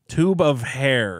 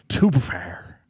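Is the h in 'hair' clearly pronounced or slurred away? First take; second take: clear; slurred. First: The words are separate and the h is clear. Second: The words run together and the h fades. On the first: "the H from hair is very apparent" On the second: "If I slurred it together"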